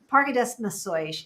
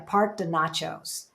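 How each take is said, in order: First: The last word is said with Portuguese sounds. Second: The last word is said like English nachos. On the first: The speaker calls it right. "I know I'm pronouncing it better than Heather does" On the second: The speaker calls it wrong. "She calls it"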